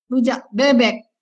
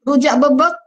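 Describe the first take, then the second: First: "bebek" said with clear open e, bébék, falling; "rujak bebek" with full e vowels, standard Jakarta way. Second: "bebek" said with both e as schwa, bəbək, rising; "rujak bebek" with flat schwa vowels, Sumatran style; Sumatran-style bəbək with a light rise. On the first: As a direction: clear bébék, ending on a fall. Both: Shown as a demonstration. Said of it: "orang Sumatera ... rujak bebek".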